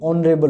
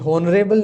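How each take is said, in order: First: The word starts with a vowel, h silent. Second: The word starts with a pronounced h sound. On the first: The speaker calls it right. "ये ऑनरेबल होता है, तो यहाँ पर एच जो है silent है" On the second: The speaker calls it wrong. "ये हॉनरेबल नहीं होता"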